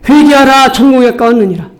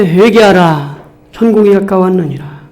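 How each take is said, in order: First: Preaching call. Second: Said in the usual way. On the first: Real, not acted. Repeated call to repent, raised.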